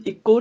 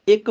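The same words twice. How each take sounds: First: ਇੱਕੋ said as ikko; ਇੱਕੋ with final o. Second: ਇੱਕ said as short ikk; numeral ਇੱਕ. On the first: Teacher showing what to avoid, ਇੱਕੋ ending in o. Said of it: "ਇੱਕੋ ਨਹੀਂ ਬੋਲਣਾ". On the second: Teacher correcting the reading, ਇੱਕ with no final vowel. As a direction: end ਇੱਕ on the k, no o. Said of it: "ਅੰਕਾਂ ਵਾਲਾ ਇੱਕ ਬੋਲਣਾ". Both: Shown as a demonstration.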